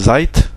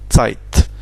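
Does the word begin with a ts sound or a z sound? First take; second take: z sound; ts sound. First: The word begins with a plain z sound. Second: The word begins with a ts sound. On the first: The speaker calls it wrong. "Si je dis Zeit, on comprendra" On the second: The speaker calls it right. "mais la prononciation c'est Tse"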